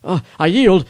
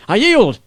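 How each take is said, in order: First: Higher, louder cry of surrender; shouting surrender from the dirt; desperate shout. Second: Even higher, louder plea; shouting surrender again, more urgent; desperate shout. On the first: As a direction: beg them to stop, shouting. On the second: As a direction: cry it out once more, pleading. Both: Acted. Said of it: "I heard his shout".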